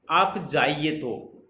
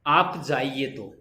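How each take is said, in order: First: "आप जाइए तो" very slowly, as a question; "आप जाइए तो" with a questioning tune at the end. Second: "आप जाइए तो" as a slow falling statement; "आप जाइए तो" with a final falling tune. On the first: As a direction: ask "आप जाइए तो" like you want them to stay. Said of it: "question mark". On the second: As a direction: say "आप जाइए तो" as a plain command. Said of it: "पूर्ण विराम". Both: Shown as a demonstration.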